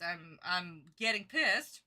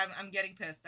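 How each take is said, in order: First: Slower, weighted irritation; slow irritated repeat. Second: Said in the usual way. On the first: Real, not acted. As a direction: lean on pissed slowly.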